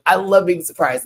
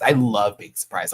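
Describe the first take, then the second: First: Love punched higher and louder, the whole line raised; stress on love. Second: Said in the usual way. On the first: Shown as a demonstration. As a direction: lean hard on love to set it right. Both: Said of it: "Don't let me lie to you".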